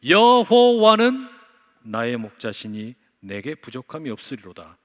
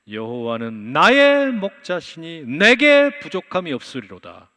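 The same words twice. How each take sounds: First: The stress falls on 여호와는. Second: The stress falls on 나의 and 내게.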